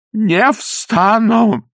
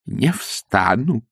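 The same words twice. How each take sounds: First: High, very slow, drawn-out refusal; stubborn refusal. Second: Stubborn refusal. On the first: Kneeling priest refusing to get up. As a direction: stretch it out, refusing to budge. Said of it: "повторил отец Фёдор". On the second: Priest refuses, kneeling. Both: Acted.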